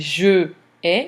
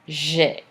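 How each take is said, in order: First: The vowel of je is pronounced separately. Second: The vowel of je is dropped entirely. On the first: The speaker calls it wrong. "instead of saying je ai" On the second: The speaker calls it right. "we're going to have j'ai"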